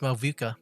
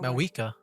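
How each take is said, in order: First: The middle consonant is a V sound. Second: The middle consonant is a W sound. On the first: This is how the speaker expected the name to sound. "I thought it was Malvika" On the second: This is how the character says the name. "she pronounced it a V as a W"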